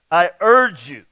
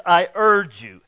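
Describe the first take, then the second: First: "I urge you" said louder, leaning hard on "urge"; emphatic urging. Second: Said in the usual way. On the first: Shown as a demonstration. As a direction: press "urge" with emotion, full voice. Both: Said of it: "there's emotion in that word".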